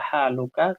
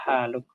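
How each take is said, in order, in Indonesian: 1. Kata ini berakhir dengan bunyi vokal. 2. Kata ini berakhir dengan konsonan, vokal akhirnya hilang. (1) "Kalau yang laki-laki ya haluka" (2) "Namun kalau dibaca ya sama"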